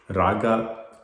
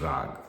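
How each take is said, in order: First: The word ends with a vowel after the g. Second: The word ends on the g with no vowel. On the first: The speaker calls it wrong. "is not the right pronunciation" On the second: The speaker calls it right. "it is rag"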